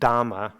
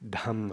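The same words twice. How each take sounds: First: The first consonant has no puff of air. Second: The first consonant has a puff of air. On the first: The speaker calls it wrong. "instead of Dhamma" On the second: The speaker calls it right. "it's Dhamma"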